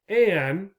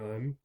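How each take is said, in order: First: The article is said with a full clear vowel. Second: The article is said with a weak reduced vowel. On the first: Stressing it or speaking in public. "an is often what you will hear. Again, it's more difficult to say, takes a little bit longer" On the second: Ordinary everyday speech. "most of the time you will hear people saying un"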